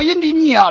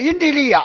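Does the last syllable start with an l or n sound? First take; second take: n; l. First: The third syllable starts with an n sound. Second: The third syllable starts with an l sound. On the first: The speaker calls it wrong. "我说阴地逆啊，老人说那不对" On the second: The speaker calls it right. "我念阴地利啊，哎，这才对"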